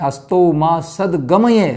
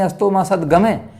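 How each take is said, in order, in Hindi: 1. आखिरी शब्द 'a-ya' में अलग से खत्म होता है। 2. आखिरी शब्द 'ai' स्वर पर खत्म होता है। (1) "संस्कृत वाले श्लोक उच्चारण करते हैं" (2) "मैं के ऊपर आई की मात्रा"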